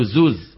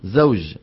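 First: "زوز" with z at both ends; jeem as zay. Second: "زوج" ending in a clear j; proper jeem. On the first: Teacher quoting colloquial speech, "زوز" with jim turned to z. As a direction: end "زوز" on a buzzing z for j. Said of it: "أبدلت الجيم زاي". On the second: Teacher correcting colloquial form, "زوج" with a distinct jim. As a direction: finish "زوج" on ج, not z. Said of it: "شو لازم تكون؟". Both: Shown as a demonstration.

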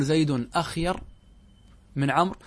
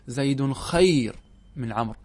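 First: أخير opening on a glottal stop and short a; full hamza form. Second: Slow خير with no initial hamza; خير starting straight on the kh, drawn out; hamza dropped. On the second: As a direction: lighten it to خير, no opening syllable. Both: Shown as a demonstration. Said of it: "نتخفف من الكلمة فنحذف منها الهمزة".

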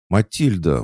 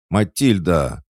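First: Sharp higher indignant cry of the name; indignant call. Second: Loud, higher angry cry of the name; angry call. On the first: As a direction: scold her by name, outraged. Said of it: "возмутилась Пуся". (возмущённо, окликая по имени) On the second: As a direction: snap her name, furious. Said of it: "Пуся злобно ударила кулаком". (злобно, громко окликая) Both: A narrator's reading.

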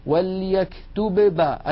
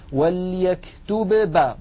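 First: وليكتب با with both ب sounded apart; slow, higher demo of the awkward split; wrong unmerged reading. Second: وليكتب با with both ب sounded apart; deliberately wrong split reading; wrong unmerged reading. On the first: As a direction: hit the ب twice, slowly. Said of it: "بالله جربوا هكذا". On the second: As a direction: hit the ب twice. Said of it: "جربوا هكذا". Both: Shown as a demonstration.

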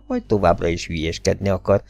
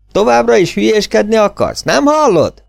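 First: Said in the usual way. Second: High, loud, pleading yell with continuing to fool around shouted out; exasperated shout. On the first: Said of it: "De most már be kellett látnia". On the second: A narrator's reading. Emerson yells at hiding Gordon, exasperated shout. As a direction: yell it into the night, losing patience.

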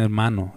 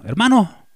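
First: Said in the usual way. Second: Hermano called high and louder. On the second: Shown as a demonstration. Preacher showing how he wants to be greeted, calling high and loud. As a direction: hail hermano across the street. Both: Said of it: "Díganme".

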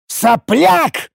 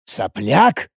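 First: "Сопляк!" as a high, furious outburst; яростный рык. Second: Low, disbelieving echo of "Сопляк?"; переспрос. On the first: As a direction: explode on "Сопляк!", choking with rage. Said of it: "захлёбываясь от ярости, рычал я". («Сопляк!», захлёбываясь от ярости) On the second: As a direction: repeat "Сопляк?" as a rising question before exploding. Первый, тихий переспрос перед взрывом. (глухо переспросить «Сопляк?») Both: A narrator's reading.

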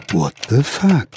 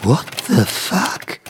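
First: Said in the usual way. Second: Slow, hushed disbelief; stunned whisper. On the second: Acted. Writer sees invisible fingers type, whispering. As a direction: breathe it out in shock.

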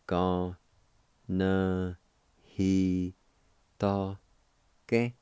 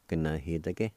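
First: "Ga, na, he, ta, ke" one syllable at a time; separated syllables of "Ga, na, he, ta, ke", held evenly; syllable-by-syllable pronunciation. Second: "Ga, na, he, ta, ke" run together as one word; natural-speed "Ga, na, he, ta, ke"; joined-up pronunciation. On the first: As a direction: sound out "Ga, na, he, ta, ke" with a pause after each syllable. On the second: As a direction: blend "Ga, na, he, ta, ke" smoothly without gaps. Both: Shown as a demonstration. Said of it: "it's pronounced like this".

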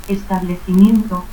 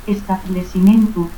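First: Said in the usual way. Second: Establecimiento as "establesimentu"; dropped I. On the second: Shown as a demonstration. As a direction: end Establecimiento in "-mentu", with S for C. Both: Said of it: "ausencia de la I".

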